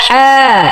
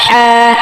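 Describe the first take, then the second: No difference in how they are said.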